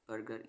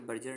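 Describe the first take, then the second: First: बर्गर with a hard "g" as in go; hard g in burger. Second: बर्जर with a soft "j" in the middle; wrong soft g. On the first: Teacher shows students the right burger sound. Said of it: "जी की यहाँ ग sound है". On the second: Teacher warns students off the soft g reading. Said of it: "यहाँ पे बर्जर नहीं पढ़ना". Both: Shown as a demonstration.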